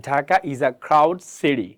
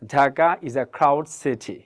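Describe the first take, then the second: First: Slow American model, "city" with a flapped T; American pronunciation. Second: Very slow, "city" with an aspirated T; slow model sentence, clear T in "city"; standard T in city. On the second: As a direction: say "city" as "si-thi", T kept crisp. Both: Shown as a demonstration. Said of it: "আর যদি American হন তাহলে কি বলবেন".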